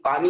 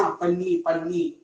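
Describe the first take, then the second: First: Said in the usual way. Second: "पन्नी" with a short clipped a and doubled n; teasing wrong "पन्नी"; mock mispronunciation. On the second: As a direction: mimic a student saying "पन्नी" for water. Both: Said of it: "पानी मिला रहे हैं".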